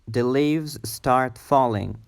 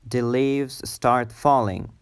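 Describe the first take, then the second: Both takes have the same delivery.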